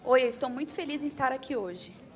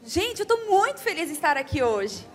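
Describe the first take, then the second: First: It is said flatly, without sounding happy. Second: It is said warmly, sounding truly happy.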